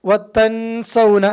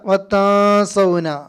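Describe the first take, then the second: First: The n sound is pronounced fully and clearly. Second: The n sound is hidden and nasalized. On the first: The speaker calls it wrong. "അല്ല" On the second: The speaker calls it right. "നൂനിനെ മറച്ച് മണിക്കണം, ഇഖ്ഫ"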